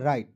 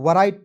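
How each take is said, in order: First: The word begins directly with the r sound. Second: A w sound is heard before the r. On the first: The speaker calls it right. "डब्ल्यू को silent करना है" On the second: The speaker calls it wrong. "इसे बहुत लोग वराइट पढ़ लेता है, नहीं वराइट नहीं पढ़ना"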